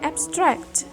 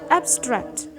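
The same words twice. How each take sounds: First: The stress is on the second syllable. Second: The stress is on the first syllable. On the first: The word is used as a verb. "Stresnya ada di syllable yang kedua" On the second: The word is used as an adjective or noun. "stressnya di first syllable"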